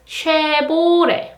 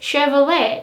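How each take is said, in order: First: It is said with Korean sounds, V becoming B. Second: It is said with English sounds, including V. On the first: "in Korean language, it is Chevrolet. The B sound" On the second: "It is Chevrolet in English"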